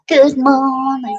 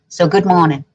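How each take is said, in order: First: Laughing. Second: Said in the usual way. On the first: Shown as a demonstration. Repeats greeting, laughing.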